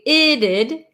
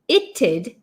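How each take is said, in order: First: The t becomes a quick flap sound. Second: A t sound is followed by a d. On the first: "almost like the T is becoming a flap T" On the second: "hear the t and then the d sound"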